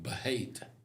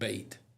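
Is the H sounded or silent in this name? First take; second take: sounded; silent. First: The H is sounded, giving two syllables. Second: The H is silent, giving one syllable. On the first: "It looks like Bahate" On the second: "I think it's pronounced bait"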